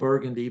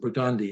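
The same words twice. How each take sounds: First: It is said the usual way, as spelled. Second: It is said the local New Orleans way. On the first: "it's spelled Burgundy" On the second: "we pronounce it Burgundy in New Orleans"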